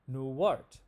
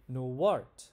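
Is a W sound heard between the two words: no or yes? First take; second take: yes; yes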